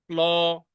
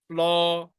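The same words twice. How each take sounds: The two takes are said the same way.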